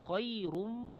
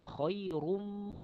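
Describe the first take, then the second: The two takes are said the same way.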